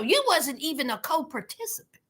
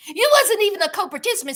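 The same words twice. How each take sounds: First: Said in the usual way. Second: "You wasn't even a co-participant" fired off fast, higher and louder; fast, punchy scornful repeat; emphatic repeat. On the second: Real, not acted. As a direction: rattle off "You" and the rest quick and pointed.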